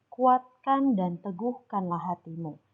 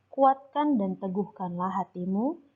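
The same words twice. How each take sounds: No difference in how they are said.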